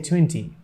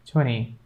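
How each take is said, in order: First: Said in the usual way. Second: "Twenty" said as "twenny"; American silent T. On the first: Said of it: "but American people say like this". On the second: Shown as a demonstration. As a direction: drop the second T in "Twenty". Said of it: "American people say like this".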